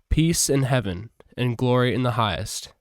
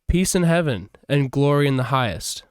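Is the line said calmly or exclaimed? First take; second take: calmly; exclaimed. First: It is read in a plain, calm voice. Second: It is said loudly, as an exclamation. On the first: The speaker calls it wrong. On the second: The speaker calls it right.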